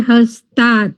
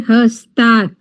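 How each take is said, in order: No difference in how they are said.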